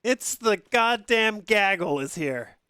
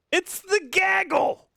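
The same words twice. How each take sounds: First: Said in the usual way. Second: High, gleeful call of gaggle; excited shout. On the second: Real, not acted. Shouting to greet the incoming raid, high and gleeful. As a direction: hail the arriving crowd.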